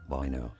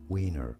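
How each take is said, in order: First: The name is said with a German pronunciation. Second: The name is said with an English pronunciation. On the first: "in German, this is said as Wiener" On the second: "but in English, this name is pronounced as Wiener"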